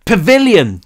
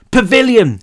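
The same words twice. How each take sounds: First: Loud high yell, straining; shouting as loud as possible. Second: Loud, high shout. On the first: Cal repeating to Brick who can't hear, full shout. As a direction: push it out with everything. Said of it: "as loud as he could manage". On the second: Cal shouting to Brick over the helicopter, loud shout. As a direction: bellow it over the roar. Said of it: "he shouted". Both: A narrator's reading.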